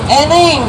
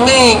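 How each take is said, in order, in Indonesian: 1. Diucapkan sebagai dua suku kata, diawali dengan bunyi vokal. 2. Diucapkan sebagai satu suku kata, diawali dengan n. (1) "kalau orang luar kota sebutnya eneng" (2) "Neng kalau orang Sunda"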